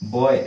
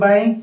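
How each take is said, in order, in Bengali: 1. স্বরধ্বনিটি boy-এর স্বরধ্বনির মতো শোনায়। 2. স্বরধ্বনিটি eye-এর স্বরধ্বনির মতো শোনায়। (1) "बॉय बॉय एमिति कहंती बोधे बट सेटा इनकरेक्ट अटे" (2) "एटा कोन हबो एही वर्ड भली ही हबो बाई"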